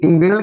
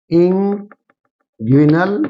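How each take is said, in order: First: Said in the usual way. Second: inguinal drawn out very slowly, ending on a rise; teacher slowly spelling out inguinal by sound; slow dictation. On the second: Shown as a demonstration. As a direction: stretch out inguinal syllable by syllable for note-takers. Teacher repeats term for students.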